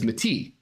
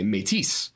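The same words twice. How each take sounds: First: The final S sound is silent. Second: The final S sound is pronounced. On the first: "Because that is the way I believed that a word spelled M-E-T-I-S in French would be pronounced" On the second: "you actually pronounce the S"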